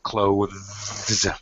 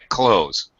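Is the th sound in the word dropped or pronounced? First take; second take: pronounced; dropped. First: A voiced th sound is heard before the final s. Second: No th sound; it sounds like close. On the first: "You have to pronounce the th, the voiced th sound" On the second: "ninety-nine percent of native speakers say close"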